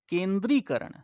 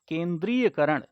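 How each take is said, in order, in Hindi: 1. 'karan' से पहले कोई 'ya' ध्वनि नहीं आती। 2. 'karan' से पहले 'ya' ध्वनि आती है। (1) "इसमें या नहीं लगेगा" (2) "ये गलत शब्द है"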